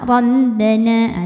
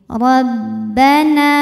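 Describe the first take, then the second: First: The B has sound going through the nose. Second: The B is pressed at the lips, without nasality. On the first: The speaker calls it wrong. "Jangan masuk hidung, misal Rabbana, ada suara masuk hidungnya" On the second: The speaker calls it right. "Fokus ke tekanan di bibir"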